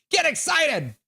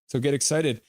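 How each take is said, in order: First: A sudden hype yell after the calm line; excited shout. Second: Said in the usual way. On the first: Shown as a demonstration.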